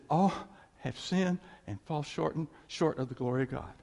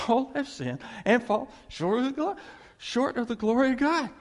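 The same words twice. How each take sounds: First: Said in the usual way. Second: Higher and louder, every word driven home; emphatic verse. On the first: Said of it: "I remember reading". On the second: Shown as a demonstration. Preacher re-reading the verse that convicted him, higher and louder. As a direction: proclaim it as if it hit you personally. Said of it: "it's me".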